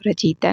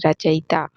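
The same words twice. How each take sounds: First: रचयिता said as "rachita"; wrong pronunciation. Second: रचयिता said as "rachayita"; correct pronunciation. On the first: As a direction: squeeze रचयिता into ra-chi-ta. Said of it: "नहीं". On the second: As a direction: give रचयिता all four syllables, ra-cha-yi-ta. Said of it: "रचयिता नहीं". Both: Shown as a demonstration.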